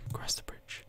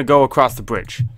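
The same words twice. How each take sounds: First: Very soft echoing whisper; hushed, voiceless repeat. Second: Said in the usual way. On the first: Pretend. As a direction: whisper it as an echo of yourself. Echoes own words in whisper.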